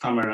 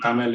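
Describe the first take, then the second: First: The name is said with its native Tamil sounds. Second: The name is said with English sounds. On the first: "it's actually pronounced as" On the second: "in English"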